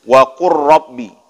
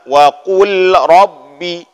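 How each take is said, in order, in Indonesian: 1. Bunyi l hilang menyatu ke dalam bunyi r yang dobel. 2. Kata-katanya terpisah, dengan bunyi l yang jelas. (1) "langsung digabung... hilang lam, langsung tasydidkan huruf ra"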